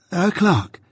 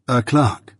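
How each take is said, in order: First: A lightly voiced young man repeating eagerly; friend echoing, higher. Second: Said in the usual way. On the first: A friend gladly echoing the offered word, higher. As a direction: echo it back in a lightly higher voice.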